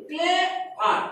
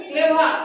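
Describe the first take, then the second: First: "clever" as two beats, clay and ভার; split in two. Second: Said in the usual way. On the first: Shown as a demonstration. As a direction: break "clever" with a clear gap after clay. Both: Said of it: "ক্লেভারটা দেখো আমি ভাঙিছি".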